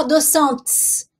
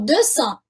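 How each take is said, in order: First: Deux cents with the final S sounded as sents; wrong, with the S. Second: Deux cents with the final S silent, ending on the nasal vowel; correct, silent S. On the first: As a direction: say deux cents pronouncing the S at the end. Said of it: "não vou falar deux cents". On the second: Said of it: "eu falo deux cents". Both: Shown as a demonstration.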